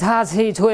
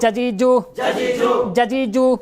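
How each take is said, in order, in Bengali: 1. j ধ্বনিটি শ্বাসযুক্ত ও মহাপ্রাণ। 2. j ধ্বনিটি নরম ও ভেজা, অল্পপ্রাণ। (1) "এরকম না" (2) "ভেজা ভেজা আওয়াজ দিয়ে"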